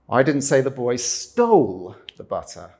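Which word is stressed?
stole. The stress is on "stole".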